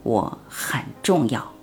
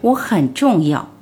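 First: It is said quietly, almost whispered. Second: It is said loudly, as a declaration.

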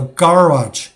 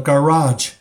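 First: Australian accent, stress on the first syllable. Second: American accent, stress on the second syllable.

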